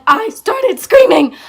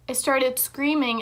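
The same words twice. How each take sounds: First: High, much louder, drawn-out exclamation; half-yell it slowly, hammering the scream; dramatic retold outburst, loud and high; mock screaming. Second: Said in the usual way. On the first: Acts out her screaming while telling it.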